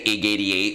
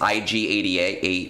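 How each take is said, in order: First: The start is said as one quick syllable. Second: The start is spelled out as two letters. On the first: It is quicker to say when talking fast. "It's one sy- syllable" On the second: This is the accepted pronunciation of the name. "that's how you say his name"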